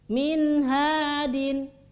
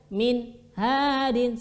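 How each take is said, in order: First: The sound flows smoothly into the next word. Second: The sound is cut off between the two words. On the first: The speaker calls it right. "Kita harus membaca dengan min hadin" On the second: The speaker calls it wrong. "suara diputus"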